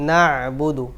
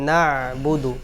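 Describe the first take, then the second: Both takes have the same delivery.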